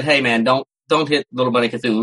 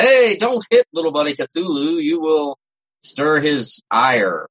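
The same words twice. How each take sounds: First: Said in the usual way. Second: Lightly hammed-up doom voice, slowing right down on stir his ire; a hint of a solemn prophet, half joking; mock ominous warning. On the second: Friends warn a drunk guy, jokingly, in a mock ominous voice. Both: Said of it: "We were trying to be funny about it".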